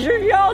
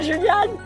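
First: The name ends in a nasal vowel. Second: The name ends in an 'ane' sound. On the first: The speaker calls it right. "On dit Julien" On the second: The speaker calls it wrong. "on dit pas Juliane"

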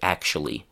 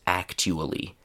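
First: The middle consonant is a ch sound. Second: The middle consonant is a plain t sound. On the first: The speaker calls it right. "people say" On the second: The speaker calls it wrong. "nobody says"

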